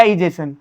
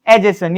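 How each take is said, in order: First: इजेशन opening on an "ee" sound; alternative pronunciation. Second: एजेशन opening on an "ay" sound; first pronunciation variant. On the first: Teacher offering students the other form, इजेशन begun with "ee". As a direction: say इजेशन with "ee-JAY-shun" sounds. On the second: Teacher offering students a term, एजेशन begun with "ay". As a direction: say एजेशन with "ay-JAY-shun" sounds. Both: Shown as a demonstration. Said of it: "एजेशन या इजेशन".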